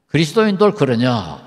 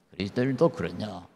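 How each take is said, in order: First: 그리스도인도 pushed out louder as a challenge; pointed question. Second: Hushed echo of the question; quiet repeat. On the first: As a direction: throw 그리스도인도 at the audience, falling at the end. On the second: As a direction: lower and softer, musing over 그리스도인도. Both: Shown as a demonstration.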